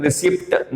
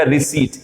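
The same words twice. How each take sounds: First: रिसिप्ट with the P sounded; wrong pronunciation. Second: रिसीट with silent P and long "ee"; correct pronunciation. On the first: Teacher showing the form not to say, mispronounced. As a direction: say रिसिप्ट as "re-sipt". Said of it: "हम रिसिप्ट नहीं बोलेंगे". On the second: Teacher showing learners the silent P, correctly pronounced. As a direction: say रिसीट as re-SEET. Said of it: "पी silent हो जाएगा". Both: Shown as a demonstration.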